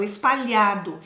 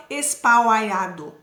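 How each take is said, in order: First: "espalhado" with a single palatal lh; "espalhado" said correctly, lh as one sound; right pronunciation. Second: "espalhado" with lh split into l plus i, like espal-iado; "espalhado" said wrongly, l and h sounded apart; wrong pronunciation. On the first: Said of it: "Eu falo espalhado". ("espalhado" certo, lh com um único som) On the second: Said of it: "Eu não falo espalhado". ("espalhado" errado, com o l e o h separados) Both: Shown as a demonstration.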